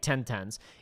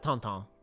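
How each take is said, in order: First: The vowels are plain, like in 'ten'. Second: The vowels are nasal, like 'ton'. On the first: This is the pronunciation he did not expect. "I did not expect it to be ten tens" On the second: This is how the French version says it. "They pronounce it tonton"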